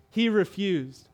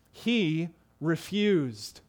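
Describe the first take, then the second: First: Said in the usual way. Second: "He refused." drawn out slowly, each word weighted; slow emphatic reading. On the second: Shown as a demonstration. Preacher reading the verse to his congregation, slow and weighty. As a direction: read "He refused." very slowly and deliberately. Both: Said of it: "notice these words".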